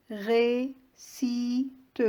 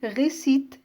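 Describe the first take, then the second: First: "récite" broken into ré, ci, te with pauses; split into syllables. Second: Said in the usual way. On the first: Shown as a demonstration. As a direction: say "récite" syllable by syllable, voicing the final e: ré... ci... te. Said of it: "trois syllabes". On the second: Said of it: "On va le découper en syllabes".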